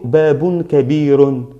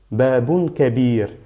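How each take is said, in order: First: The last word ends with an added -un sound. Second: The last word ends on a bare r sound. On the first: The speaker calls it wrong. "Yo no digo babun kabirun" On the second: The speaker calls it right. "Solo r, r"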